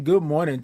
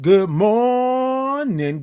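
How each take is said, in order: First: Said in the usual way. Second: High, long-held "morning", stretched on the first syllable; big high stretched-out morning greeting; drawn-out greeting. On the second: Real, not acted. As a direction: sing out "good morning", holding "mor-" very long. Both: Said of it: "I love all the O's and R's and I N Gs".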